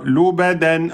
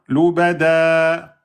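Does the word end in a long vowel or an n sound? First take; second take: n sound; long vowel. First: The word ends with an n sound. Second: The word ends on a lengthened vowel.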